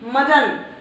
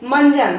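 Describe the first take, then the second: First: It is said without a nasal 'n' before 'j'. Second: It is said with a nasal 'n' before 'j'. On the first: The speaker calls it wrong. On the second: The speaker calls it right.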